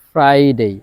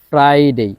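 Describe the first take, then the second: No difference in how they are said.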